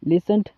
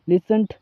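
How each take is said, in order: First: The word ends with a t sound. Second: The same.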